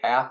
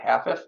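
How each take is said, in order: First: The name is said as one syllable. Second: The name is said as two syllables. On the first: This is how the family says the name. "we mispronounce it half" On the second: This matches how the name is spelled. "instead of half-if"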